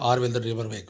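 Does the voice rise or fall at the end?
fall. It is said flat, not as a question.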